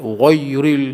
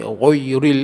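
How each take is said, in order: Both takes have the same delivery.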